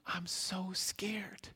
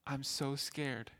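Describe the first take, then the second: First: Put-on slow, trembling little-girl whisper; frightened whisper. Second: Soft and slow, voice sinking; quiet scared words. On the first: Lost little girl telling the stranger her fear, whispered. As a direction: breathe it out like a scared lost child. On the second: Retold or imitated. Confused old woman admitting her fear to the helper, softly and slowly. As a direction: let it fall softly, slow and small.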